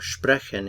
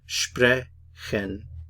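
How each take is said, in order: First: The word is said smoothly as one unit. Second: The word is split with a pause between syllables.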